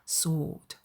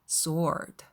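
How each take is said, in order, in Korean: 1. 영국식 발음으로 말합니다. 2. 미국식 발음으로 말합니다. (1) "영국식 발음으로 가보면" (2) "미국식 발음으로 해볼까요?"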